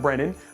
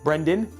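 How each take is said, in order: First: The name is said without a d sound. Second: The name is said with a d sound. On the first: The speaker calls it wrong. "not Brennan" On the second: The speaker calls it right.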